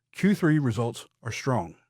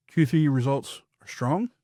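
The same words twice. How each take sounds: First: Strong dropping down at the end; falling tune on strong, firm period; firm statement. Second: Strong rising up at the end; rising question tune on strong; asking it as a question. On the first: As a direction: land it like a fact. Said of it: "then as a statement". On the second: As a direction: say it like you're unsure of it. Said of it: "say it first as a question". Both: Shown as a demonstration.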